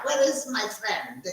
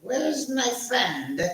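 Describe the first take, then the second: First: Where said with a South African lilt, falling; a touch of South African on Where; South African accent. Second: Slow, higher South African lilt on Where's; South African accent. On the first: Host asking again for his friend in South African accent. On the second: Host calling for his friend in South African accent. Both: Pretend. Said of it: "accent from South Africa".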